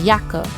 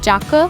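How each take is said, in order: First: It begins with a 'y' as in 'yes'. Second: It begins with a 'j' as in 'jam'. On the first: The speaker calls it right. "you say Jacke" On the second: The speaker calls it wrong. "You don't say Jacke"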